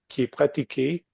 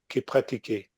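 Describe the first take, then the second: First: The first word has a clear ee vowel. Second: The first word drops the i, giving uh.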